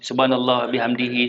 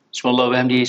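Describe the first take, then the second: First: It is said at a normal, unhurried pace. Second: It is said quickly, in rapid succession.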